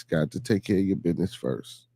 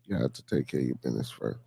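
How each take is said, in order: First: Said in the usual way. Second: Very low and soft aside; deep, quiet afterthought; low, hushed repeat. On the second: Real, not acted. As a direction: drop right down, as if to yourself. Repeats the motto low, to himself.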